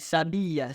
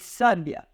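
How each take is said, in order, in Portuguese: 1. A primeira sílaba não é tônica. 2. A primeira sílaba é tônica. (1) "Nenhuma delas pronunciamos com mais intensidade" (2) "aqui a sílaba tônica recai na penúltima sílaba"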